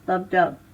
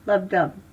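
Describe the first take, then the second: The two takes are said the same way.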